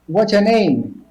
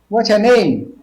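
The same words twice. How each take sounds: No difference in how they are said.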